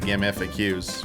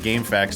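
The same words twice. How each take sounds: First: FAQ is spelled out as separate letters. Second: FAQ is said as a single word. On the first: The speaker calls it right. "it's abbreviated. It's frequently asked questions, so it's the letters F A Q" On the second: The speaker calls it wrong. "I don't say GameFAQs"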